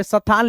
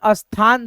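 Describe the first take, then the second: First: "स्थान" as sa-than; लिखे जैसा उच्चारण. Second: "स्थान" said as as-than, leading a; पढ़ने का उच्चारण. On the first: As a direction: give the s of "स्थान" its own vowel. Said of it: "जैसे यहाँ पे स्थान लिखा जाता है". ("स्थान" को स-थान बोलकर) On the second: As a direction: put a short a before "स्थान". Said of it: "दोस्तों पढ़ा जाता है". ("स्थान" को अस्थान बोलकर) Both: Shown as a demonstration.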